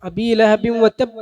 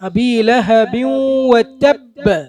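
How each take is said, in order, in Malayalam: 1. അവസാന b പ്രതിധ്വനി ഇല്ലാതെ ക്ലിപ്പ് ചെയ്തതാണ്. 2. അവസാന b കേൾക്കാവുന്ന പ്രതിധ്വനിയോടെ തട്ടുന്നു. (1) "തബ് എന്ന് പറഞ്ഞാൽ പോരാ ... അല്ല" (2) "തബ് ബ് ബ് എന്ന ശബ്ദം കേൾക്കണം"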